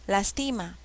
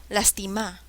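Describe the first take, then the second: The two takes are said the same way.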